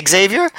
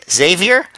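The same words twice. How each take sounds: First: Xavier said as ig-ZAY-vee-er; Xavier as "ex-ZAY-vyer"; corrected pronunciation. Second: Xavier said as ZAY-vee-er; Xavier as plain "ZAY-vyer"; mispronounced name. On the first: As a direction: say Xavier with a leading "ex" sound. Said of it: "it's actually Xavier". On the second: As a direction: say Xavier without the opening "ex", starting on a Z. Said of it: "He keeps calling him Xavier". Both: Retold or imitated.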